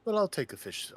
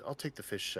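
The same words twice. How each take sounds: First: Jumps in high and loud with a burst of eagerness; eager acceptance. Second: Said in the usual way. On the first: Acted. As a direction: snap up the offer gladly. Player eagerly accepts the offer.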